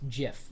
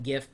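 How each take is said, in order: First: It begins with a soft j sound. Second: It begins with a hard g sound. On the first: "like the peanut butter" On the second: "For a while, I called it GIF"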